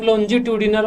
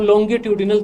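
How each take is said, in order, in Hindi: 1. बीच का व्यंजन soft j की आवाज़ है। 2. बीच का व्यंजन हार्ड g की आवाज़ है। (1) "अलग अलग एक्सेंट में अलग अलग बोला जाता है" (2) "अलग अलग एक्सेंट में अलग अलग बोला जाता है"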